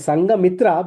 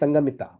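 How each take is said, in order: First: The word has an r sound after the t. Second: The word has no r sound after the t. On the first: This is the Hindi form of the name. "we call in uh, Hindi" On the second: This is the Pali form of the name. "Pali doesn't have R"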